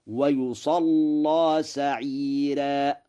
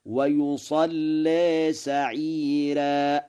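First: ويصلى chanted as "wa-yusallaa" with a thick dark l; slow recitation, full open aa in ويصلى; heavy lam. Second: ويصلى chanted as "wa-yusallee" with a thin l; slow, higher recitation, aa of ويصلى tilted toward e; light lam. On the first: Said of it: "فيقرأ الوجه الأول هكذا". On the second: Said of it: "ويقرأ الوجه الثاني هكذا". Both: Shown as a demonstration.

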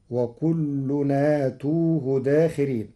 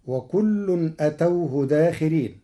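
First: آتوه said aatuuhu, long a and u on t; Warsh reading of آتوه. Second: أتوه said atawhu, short a; common reading of أتوه. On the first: Teacher shows Warsh, long a in آتوه. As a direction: stretch the a of آتوه. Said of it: "بمد الهمز وضم التاء". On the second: Teacher recites the usual form, أتوه short. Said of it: "قرأ ورش كلمة أتوه". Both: Shown as a demonstration.

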